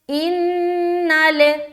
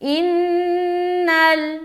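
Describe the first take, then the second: First: The final L bounces with an echoing vowel. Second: The final L is held without any echo. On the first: The speaker calls it wrong. "बाज लोग क्या पढ़ते हैं ... इस तरह की आवाज नहीं आनी चाहिए" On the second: The speaker calls it right. "लाम में अपनी आवाज को अटका लेंगे ... ये सही है"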